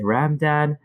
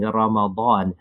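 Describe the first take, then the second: First: It sounds like ramen with a plain d. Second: The middle consonant is a distinct emphatic d. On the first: "like ramen noodles" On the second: "make the dad very distinct"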